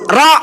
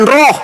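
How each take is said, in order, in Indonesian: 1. Vokalnya bunyi 'a' terbuka. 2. Vokalnya bunyi 'o' membulat. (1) "Huruf Ra" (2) "bukan roh"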